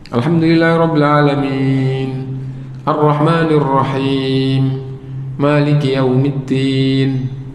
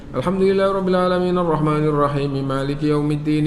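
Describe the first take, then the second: First: It pauses after each verse. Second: It runs on in one breath without pauses. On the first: "sunnahnya diputus satu ayat demi satu ayat" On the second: "Satu surat selesai, satu nafas ya"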